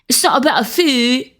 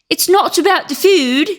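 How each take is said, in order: First: A British accent that sounds like a young man. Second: A British accent that sounds like an old lady. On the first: The speaker calls it right. "he's like a, a bloke. He's thirty-two. He talks like this" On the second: The speaker calls it wrong. "that sounds like an old British lady"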